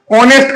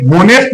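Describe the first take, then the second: First: ऑनेस्ट starting on the vowel O; silent H. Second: होनेस्ट with the H sounded; wrong pronunciation. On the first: Teacher shows pupils the correct word, ऑनेस्ट with silent H. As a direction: say ऑनेस्ट with no h sound. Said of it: "ऑनेस्ट का sound दे रहा है". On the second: Teacher shows pupils the mistake, होनेस्ट with a sounded H. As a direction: say होनेस्ट with an audible h at the start. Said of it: "यहाँ पे होनेस्ट नहीं". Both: Shown as a demonstration.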